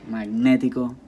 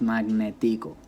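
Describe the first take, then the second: First: The stress is on the syllable ne. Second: The stress is on the syllable ti.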